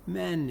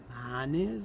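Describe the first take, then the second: First: MENES with the first vowel moved forward to E; closed, fronted vowel. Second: MANES with open A, tune rising; original A vowel. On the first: Lecturer completing the vowel change, closer E in "menes". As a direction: say "menes" with E in place of A. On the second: Lecturer setting up the vowel change, open A in "Manes". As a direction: say "Manes" with a wide A, left hanging. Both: Shown as a demonstration. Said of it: "avec une fermeture et une antériorisation".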